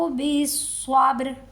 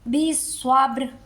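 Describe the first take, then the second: No difference in how they are said.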